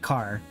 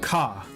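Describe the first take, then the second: First: The final R sound is pronounced. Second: The final R sound is dropped.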